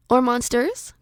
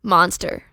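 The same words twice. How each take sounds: First: MONSTERS lifted at the end as a question. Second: Said in the usual way. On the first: Shown as a demonstration. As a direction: ask "monsters" with an unsure upward tune. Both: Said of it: "Question mark?".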